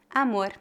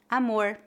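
First: The final R is weak. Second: The final R is retroflex.

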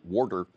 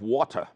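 First: It is said in a Philadelphia accent. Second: It is said in a standard accent.

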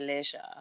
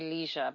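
First: It is said with a British pronunciation. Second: It is said with an American pronunciation. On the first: "but I would say leisure" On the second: "I know Americans say leisure"

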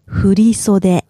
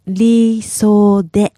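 First: It is said quickly as one word. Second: It is said slowly, syllable by syllable.

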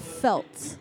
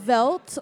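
First: The word begins with an F sound. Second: The word begins with a V sound. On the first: The speaker calls it right. "So F with a F" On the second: The speaker calls it wrong. "F, not a V"

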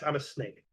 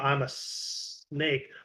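First: The S sounds are short and ordinary. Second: The S sounds are drawn out into a hiss. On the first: "Just a normal ass" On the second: "sound their S's with, you know"

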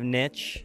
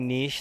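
First: The word is said the American way. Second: The word is said the European way. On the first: This is the speaker's old habit. "instead of niche" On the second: This is the speaker's new habit. "I now say niche"

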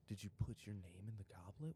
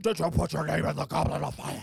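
First: It is said calmly and quietly. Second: It is said as a loud scream.

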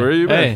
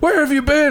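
First: It is said flatly, with no emotion. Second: It is said dramatically, with strong emotion.

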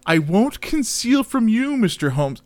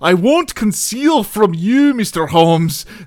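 First: It is read in the speaker's plain accent. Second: It is read in a Scottish accent.

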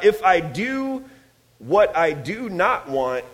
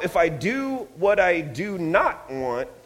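First: It is read slowly. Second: It is read at normal speed.

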